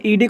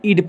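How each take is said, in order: First: ईडी said as the two letter names; the reading to avoid, ईडी as letters; not this: ईडी; wrong reading ईडी. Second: ईड said as one short syllable; the correct ending, ईड clipped short; teacher stressing ईड; right sound ईड. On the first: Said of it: "ईडी नहीं". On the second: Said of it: "बल्कि ईड पढ़ते हैं". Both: Shown as a demonstration.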